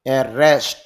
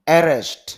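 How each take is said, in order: First: The stress is on the second syllable. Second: The stress is on the first syllable. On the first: It is used as a verb. "আর এটা হলো দ্বিতীয় সিলেবলে ধাক্কা দিতে হবে" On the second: It is used as a noun. "মানে শুরুতেই ধাক্কা"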